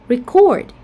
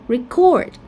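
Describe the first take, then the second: No difference in how they are said.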